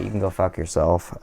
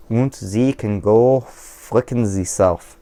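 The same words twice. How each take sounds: First: Said in the usual way. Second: Slow, hammed-up fake German accent; a lightly done fake German accent, mangling the insult on purpose; a mock German accent told off at anyone who insults him. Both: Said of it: "I didn't say that right".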